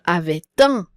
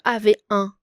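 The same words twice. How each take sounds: First: The T is pronounced, linking into un. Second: The T is silent, with no liaison. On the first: The speaker calls it right. "on va faire la liaison" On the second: The speaker calls it wrong. "On va pas dire avait un"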